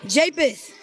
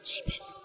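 First: The name is said loudly. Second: The name is said quietly.

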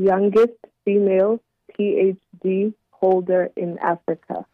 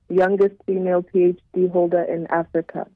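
First: It is said more slowly. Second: It is said at normal speed.

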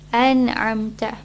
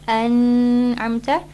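First: The n is clear without any held hum. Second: The n is nasalized with a held hum. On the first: The speaker calls it right. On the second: The speaker calls it wrong. "So not"

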